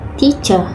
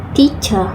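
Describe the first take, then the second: Both takes have the same delivery.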